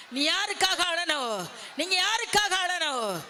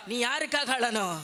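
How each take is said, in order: First: Raised repeat. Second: Said in the usual way. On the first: Real, not acted. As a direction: press the question harder on யாருக்காக. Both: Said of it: "repeated question raised".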